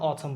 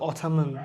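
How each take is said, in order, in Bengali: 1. শেষের n ধ্বনিটি নীরব। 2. শেষের n ধ্বনিটি উচ্চারিত হয়। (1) "আমরা অথাম বলি" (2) "আমরা কিন্তু অথামন এরকম বলি না"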